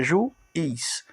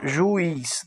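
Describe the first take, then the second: First: "juiz" split into ju and iz; syllable by syllable. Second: Said in the usual way. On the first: Shown as a demonstration. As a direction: pause inside "juiz" before iz. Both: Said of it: "separando a sílaba fica juiz".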